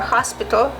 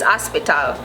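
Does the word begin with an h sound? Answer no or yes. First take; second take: yes; no. First: It starts with an h and a full o. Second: It drops the h and the o sounds like a. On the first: "however you say it" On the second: "We don't say the H, ... we don't say the O either. It's almost like we say A"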